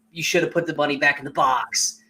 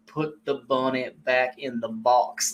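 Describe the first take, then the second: First: Said in the usual way. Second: Slow, hammed-up Southern accent; mock Southern accent. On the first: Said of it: "if Nicolas Cage just said". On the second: Shown as a demonstration. Showing the co-host the accent makes the line, mock Southern accent. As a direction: stretch it out in a fake Southern accent. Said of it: "the accent is to me what makes it".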